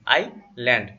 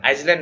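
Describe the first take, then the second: First: आइलैंड said with no s, eye-land; correct pronunciation. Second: आइसलैंड said with the s sounded, as the wrong way; wrong pronunciation. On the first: Tutor correcting students' reading of island, s silent. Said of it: "इसको आइलैंड पढ़ेंगे". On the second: Tutor showing students the wrong way to read island. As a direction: say आइसलैंड with a clear s in the middle. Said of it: "आइसलैंड नहीं". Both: Shown as a demonstration.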